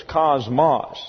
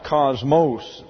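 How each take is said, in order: First: Cosmos said as KOZ-moss, short final vowel; Greek pronunciation. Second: Cosmos said as KOZ-mohss, long O at the end; English pronunciation. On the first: Teacher sounding out the Greek word, Greek-style KAHZ-mahs for cosmos. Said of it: "gets a short A sound". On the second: Teacher contrasting English with Greek, English-style KAHZ-mohs for cosmos. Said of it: "it is pronounced cosmos in the English". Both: Shown as a demonstration.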